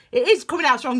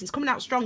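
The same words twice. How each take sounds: First: "is" punched louder in confirmation; emphatic "is", insisting it is true; stress on IS. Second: Said in the usual way. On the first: Real, not acted. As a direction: lean hard on "is". Confirms her own remark with emphasis.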